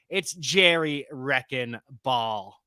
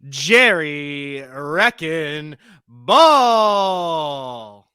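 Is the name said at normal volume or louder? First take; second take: normal; louder. First: It is said at normal volume. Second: It is said louder.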